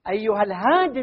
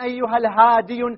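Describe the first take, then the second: First: The word ends in a plain long i. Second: The final y carries a u vowel, like hadiyu. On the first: The speaker calls it right. "نحذفها للثقل" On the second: The speaker calls it wrong. "غلط، هذا غلط"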